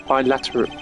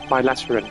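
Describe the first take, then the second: No difference in how they are said.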